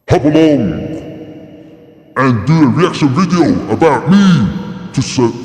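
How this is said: It is said in a deep, manly voice.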